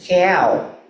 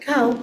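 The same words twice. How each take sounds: First: It is said in an Australian accent, vowel shifted. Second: It is said in a plain general English accent. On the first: "They pronounce it as cow. It's a vowel shift" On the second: "a simple cow. That's it"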